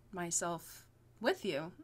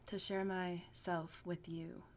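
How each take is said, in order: First: Said in the usual way. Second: Slow, whispered, suggestive; sultry whisper. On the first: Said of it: "I got awkward at that part". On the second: Shown as a demonstration. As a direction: breathe it out suggestively. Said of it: "it sounds very, like, intimate and sexual".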